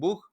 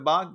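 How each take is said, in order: First: It is said with a Spanish pronunciation. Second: It is said with an English pronunciation. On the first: "dicen bug" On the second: "en lugar de bug"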